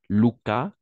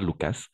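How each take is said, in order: First: The final s is silent. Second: The final s is sounded. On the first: The speaker calls it right. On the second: The speaker calls it wrong. "Pas Lucas"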